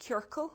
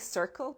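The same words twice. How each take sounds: First: It is pronounced with Irish sounds. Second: It is pronounced like the English word circle. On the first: The speaker calls it right. "which is the Irish for a circle" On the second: The speaker calls it wrong. "I always say it wrong. I go to say circle"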